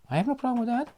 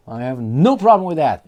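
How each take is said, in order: First: High, prissy-sounding mock reply; mock high take. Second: Louder, emphatic mock retort; loud mock take. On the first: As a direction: squeak it up high, mocking. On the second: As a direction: belt it out, hamming the insistence. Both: Repeats line mocking.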